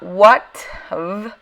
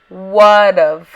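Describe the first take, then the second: First: The middle consonant is a T sound. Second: The middle consonant is a D sound. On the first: The speaker calls it wrong. "it's not what of" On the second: The speaker calls it right. "it's what of, like with a D sound"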